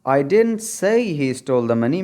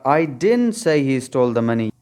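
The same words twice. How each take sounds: First: The stress falls on the word say. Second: The stress falls on the word didn't. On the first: The speaker only hinted at it. "अगर से पे stress डालें" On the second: The speaker flatly denies saying it. "अगर आप stress didn't पर डालेंगे"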